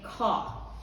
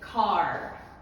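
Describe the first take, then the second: First: The final R sound is dropped. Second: The final R sound is clearly pronounced. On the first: "But if British, the R, the ending, will not be pronounced" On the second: "For Americans, they pronounce the R"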